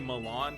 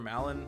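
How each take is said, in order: First: The second syllable sounds like "Lon". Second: The name rhymes with "Talon". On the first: The name comes from the ranch's name. "I've heard so many people say Milan because I guess because Lon Lon Ranch" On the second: The name is modeled on the father's name. "I just think of Talon and you just switch the M with the, the T for an M"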